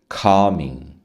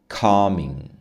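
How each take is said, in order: Both takes have the same delivery.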